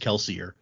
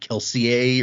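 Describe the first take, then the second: First: The name is pronounced in a plain English way. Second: The name is pronounced in a French-like way. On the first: This is the comfortable everyday way to say it. "that's not the way it's supposed to be pronounced" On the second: This is how the name is supposed to sound. "those names are supposed to be like French-ish"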